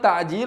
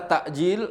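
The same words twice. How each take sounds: First: The middle consonant is a throaty ain sound. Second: The middle consonant is a glottal stop. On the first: It means hastening. "Kalau pakai ain" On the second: It means delaying. "Kalau pakai hamzah"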